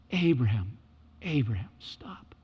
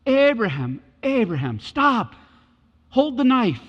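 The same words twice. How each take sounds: First: Whispered call, fading to breath. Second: Calling out. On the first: Shown as a demonstration. God calling Abraham again, now whispered. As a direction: breathe the name, hushed. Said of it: "repeated softly as contrast". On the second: Retold or imitated. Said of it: "God calls out of the heavens".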